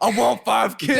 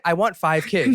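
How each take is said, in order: First: It is said emphatically, as if in capitals. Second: It is said in a calm, plain way.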